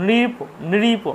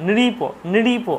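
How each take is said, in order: The two takes are said the same way.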